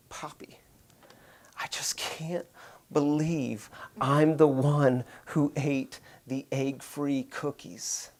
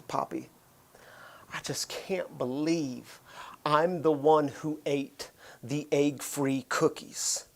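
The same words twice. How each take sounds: First: Slow, breathless whispered confession with tears; retold crying whisper. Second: Soft, slow, near-silent confession; retold tearful whisper. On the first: Daughter in tears under the covers confessing, whispered. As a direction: barely voice it, a tearful child. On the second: Daughter confessing to her dad at bedtime, whispered. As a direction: whisper it like a guilty little girl.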